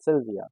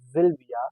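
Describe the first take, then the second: First: The name begins with a hissing s sound. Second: The name begins with a buzzing z sound. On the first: The speaker calls it wrong. "not Sylvia" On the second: The speaker calls it right. "S sounds as Z ... we call it Sylvia"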